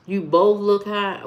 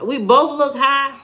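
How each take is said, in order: First: Said in the usual way. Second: Higher-pitched questioning repeat; offended, voice lifting into a question; incredulous echo. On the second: Real, not acted. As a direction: echo the accusation in disbelief. Echoes the comment in disbelief.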